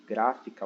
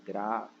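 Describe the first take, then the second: First: Said in the usual way. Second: "Gráfica" split by syllable, GRÁ held longest; stress on GRÁ. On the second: Shown as a demonstration. Teacher shows the tonic syllable, "Gráfica" said as GRÁÁ-fi-ca. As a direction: draw out the first syllable of "Gráfica", then separate fi and ca. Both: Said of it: "o gra, ele é a sílaba tônica".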